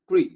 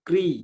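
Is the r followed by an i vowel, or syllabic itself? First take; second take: syllabic r; i vowel. First: The r itself acts as the vowel. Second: A consonant r is followed by an i vowel. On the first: "এখানে কিন্তু রিটা স্বরবর্ণ" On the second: "কয় রফলা হ্রস্বইকার বলতে গেলে"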